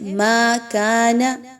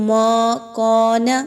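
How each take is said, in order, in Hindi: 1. लंबा अलिफ़ स्वर बारीक और हल्का है। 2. लंबा अलिफ़ स्वर भारी और गहरा है। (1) "बल्कि बारीक पढ़ना है" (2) "मोटा नहीं करना"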